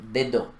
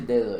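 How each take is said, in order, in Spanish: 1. Los sonidos de la d son duros y fuertes. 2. Los sonidos de la d son suaves y ligeros. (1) "ella dice dedo" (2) "ella no dice dedo"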